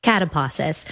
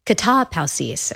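First: Catapausis anglicized as CAT-uh-pah-sus, a bit softer; English reading. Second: Katapausis said the Greek way, kah-tah-POW-sees; careful Greek katapausis with an ow sound; Greek pronunciation. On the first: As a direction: read catapausis like an English word. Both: Shown as a demonstration. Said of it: "or we would probably say it if we just read it".

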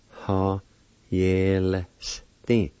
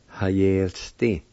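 First: "Ha, yel, sti" in separated syllables. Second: Said in the usual way. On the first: Shown as a demonstration. Teacher repeating the word for penknife, syllable by syllable. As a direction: sound out "Ha, yel, sti" for learners. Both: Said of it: "It's pronounced like this".

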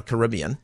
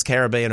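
First: "Caribbean" said ka-RIB-ee-an; stress on RIB. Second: "Caribbean" said ka-ra-BEE-an; stress on BEAN. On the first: Host teasing the pronunciation poll, "Caribbean" stressed on RIB. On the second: Host teasing the pronunciation poll, "Caribbean" stressed on BEAN. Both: Shown as a demonstration. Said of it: "What are you hitting harder?".

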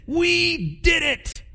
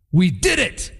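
First: Much higher, slow drawn-out victory squeal; hammed-up high gleeful cheer. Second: Proud soldier cheering his win; mock proud cheer; lightly voiced boastful soldier; triumphant brag. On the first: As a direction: squeal it like a giddy kid who won. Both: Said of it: "gone home to their wives and said".

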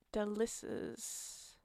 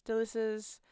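First: Slow, soft, drawn-out Delicious, breathed out; savoured delivery. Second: Said in the usual way. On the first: Shown as a demonstration. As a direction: let Delicious melt slowly, hushed and savoured. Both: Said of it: "that's how you, yes".

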